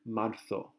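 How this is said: The z is pronounced as a th sound. This is how people from Spain often say it. "sometimes tend to make the Z have a TH sound"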